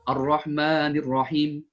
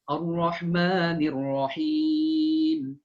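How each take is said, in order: First: The final vowel is held only briefly. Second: The final vowel is drawn out at length. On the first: The speaker calls it wrong. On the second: The speaker calls it right.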